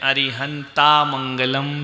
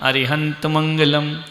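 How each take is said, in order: First: The first word ends in a long 'aa' vowel. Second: The first word ends with no added vowel. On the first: The speaker calls it wrong. "कई लोग बोलते हैं अरिहंता मंगलम सिद्धा मंगलम, ये गलत है।" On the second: The speaker calls it right. "क्या बोलने का? अरिहंत मंगलम"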